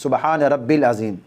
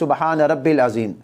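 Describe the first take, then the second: First: It is said hurriedly, dropping the 'ya' sound. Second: The same.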